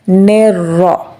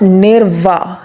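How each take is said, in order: First: The second consonant is an r sound. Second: The second consonant is a w sound. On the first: The speaker calls it right. "we will pronounce it as nirra" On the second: The speaker calls it wrong. "this is not nirva. There is no wow"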